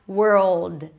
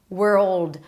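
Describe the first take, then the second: Both takes have the same delivery.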